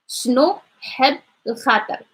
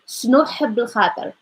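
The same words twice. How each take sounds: First: The phrase is said slowly and carefully. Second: The phrase is said quickly and smoothly.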